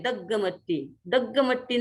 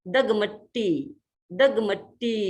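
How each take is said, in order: First: दग्गमट्टी with a doubled ग; दग्गमट्टी with a mistaken double ग; wrong double g. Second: दगमट्टी with a single, light ग, slowly. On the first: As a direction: say दग्गमट्टी with a held ग्ग. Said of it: "कई बार लोग ग को यहाँ दो बोल देते हैं". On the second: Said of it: "दग्गमट्टी नहीं". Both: Shown as a demonstration.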